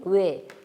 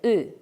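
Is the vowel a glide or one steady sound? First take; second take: glide; steady. First: The vowel glides from one sound into another. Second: The vowel is one steady rounded sound. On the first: "모두 이중모음인 외" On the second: "입술 모양을 오처럼 동그랗게 하고 이를 발음해서"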